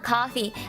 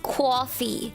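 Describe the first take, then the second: First: It begins with a plain k sound. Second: It begins with a kw sound. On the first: "It's not K A W F E E" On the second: "as Lan and Fish says it, it's coffee. It's K W A W F E E"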